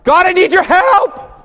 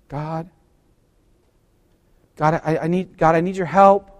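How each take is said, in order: First: It is said noticeably louder than normal. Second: It is said at a calm, ordinary volume.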